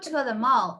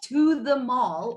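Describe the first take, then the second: First: The word 'to' is reduced to a weak sound. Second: The word 'to' is said with its full vowel. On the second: "instead of"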